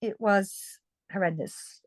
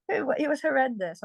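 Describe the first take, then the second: First: Sincere, serious. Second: Half laughing. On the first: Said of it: "I laugh, but it was". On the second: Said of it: "Honestly, I laugh". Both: Real, not acted.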